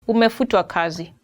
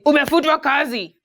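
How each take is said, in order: First: It is said gently and politely. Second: It is said bluntly and harshly.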